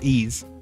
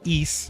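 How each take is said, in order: First: The word ends with a buzzing Z sound. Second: The word ends with a hard S sound. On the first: The speaker calls it wrong. "not E's" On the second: The speaker calls it right. "Probably supposed to be East"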